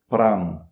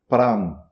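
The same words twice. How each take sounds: Both takes have the same delivery.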